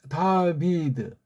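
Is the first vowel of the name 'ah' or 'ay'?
ah. The first vowel is an open 'ah' sound. This is the original European way of saying it. The speaker calls it right. "다비드라고 하는 게 오리지널 영국식이라면"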